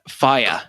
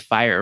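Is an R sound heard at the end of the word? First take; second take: no; yes. First: The final R sound is not pronounced. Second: The final R sound is clearly pronounced. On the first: This is how British speakers say it. "they don't pronounce their R's" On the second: This is how American speakers say it. "Americans would say fire"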